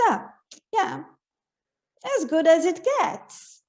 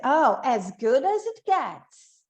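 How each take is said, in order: First: Slow, unimpressed, shrugging it off; resigned. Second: Slow, pleased and enthusiastic; delighted. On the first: Teacher showing that things are merely so-so, resigned. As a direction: sound like it's only just okay. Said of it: "E algumas vezes você". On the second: Teacher showing that something really is wonderful, delighted. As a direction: savour it like things are truly great. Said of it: "Conforme a entonação que a gente vai dar". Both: Shown as a demonstration.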